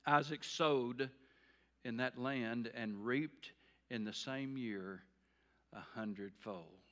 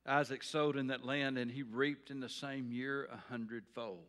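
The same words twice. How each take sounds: First: Measured scripture reading, fading on the last word. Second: Said in the usual way. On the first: Shown as a demonstration. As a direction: let the verse land piece by piece. Verse read slowly for effect.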